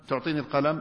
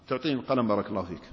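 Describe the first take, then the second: First: "تعطيني القلم" asked as a question, rising on القلم; "تعطيني القلم" said as a yes-or-no question with a rising end; question tune. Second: "تعطيني القلم بارك الله فيك" said as a courteous request, fast with a falling end and no question rise; a respectful request tune, said quickly and falling; polite request tune. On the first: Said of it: "ليس استفهام". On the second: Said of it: "الصيغة والنبرة نبرة طلب". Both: Shown as a demonstration.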